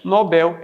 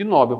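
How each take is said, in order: First: The stress is on the last syllable. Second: The stress is on the first syllable. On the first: The speaker calls it right. "o certo é Nobel" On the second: The speaker calls it wrong. "em vez de Nobel"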